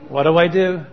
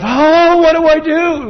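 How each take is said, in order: First: It is said in a calm, relaxed way. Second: It is said in a panicked, anxious way.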